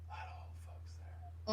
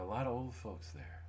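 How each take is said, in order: First: Breathy whisper, no voice at all; whispered aside. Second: Said in the usual way. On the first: Pretend. Whispering the aside to the listener.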